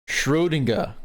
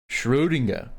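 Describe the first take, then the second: No difference in how they are said.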